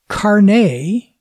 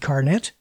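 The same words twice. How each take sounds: First: It is said the French-Canadian way. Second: It is said with an English pronunciation.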